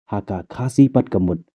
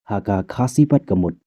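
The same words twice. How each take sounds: Both takes have the same delivery.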